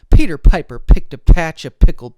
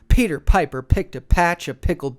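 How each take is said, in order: First: Recorded up close with a bidirectional pickup pattern. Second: Recorded up close with an omnidirectional pickup pattern. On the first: "Now in bidirectional mode" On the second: "Now in omnidirectional mode"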